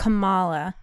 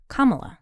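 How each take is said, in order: First: The stress is on the second syllable. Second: The stress is on the first syllable. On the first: The speaker calls it wrong. "I was calling her Kamala too" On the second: The speaker calls it right. "she pronounces it Kamala"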